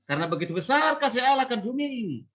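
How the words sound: It stops with a short pause after it. The first idea stands apart. The speaker calls it right. "Tapi kalau dia penggal"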